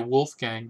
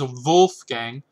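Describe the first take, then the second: First: The name begins with a W sound. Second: The name begins with a V sound. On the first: "most people say Wolfgang" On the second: "I'm trying to pronounce that in the original. But it is Wolfgang"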